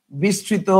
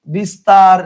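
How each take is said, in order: First: Softer example. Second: Emphatic example. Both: Shown as a demonstration. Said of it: "তাহলে খেয়াল করেন".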